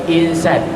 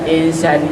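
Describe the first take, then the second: Both takes have the same delivery.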